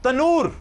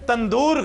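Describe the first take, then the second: First: A single 'n' comes before the end, no 'd'. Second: A nasal and a 'd' come before the end. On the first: The speaker calls it right. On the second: The speaker calls it wrong. "तंदूर गलत है"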